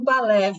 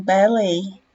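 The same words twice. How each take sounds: First: Balé with Portuguese sounds, ba-LÉ, open é. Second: Ballet said the English way, BA-lay with a gliding ay. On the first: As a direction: say balé the Brazilian way. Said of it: "O balé que a gente fala". (balé com pronúncia brasileira, é aberto) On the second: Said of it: "eles falam ballet". (ballet com pronúncia inglesa, final lei) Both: Shown as a demonstration.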